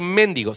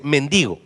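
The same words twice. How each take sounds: First: MENDIGO stressed on the first syllable, "MÉN-digo"; wrong pronunciation. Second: MENDIGO stressed on the middle syllable, "men-DI-go"; correct pronunciation. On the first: Preacher showing church the wrong word, MENDIGO mispronounced as "méndigo". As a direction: push the stress of MENDIGO onto MEN. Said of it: "No voy a decir mendigo". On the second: Preacher correcting himself for church, MENDIGO pronounced as "men-DI-go". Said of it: "se dice mendigo". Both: Shown as a demonstration.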